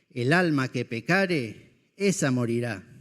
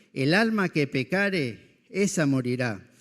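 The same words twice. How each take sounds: Both takes have the same delivery.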